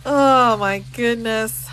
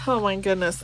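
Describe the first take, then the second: First: Slow, breathless through laughter; laughing the words out. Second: Said in the usual way. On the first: Real, not acted. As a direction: still giggling as she says it. Laughing at the cousin reveal.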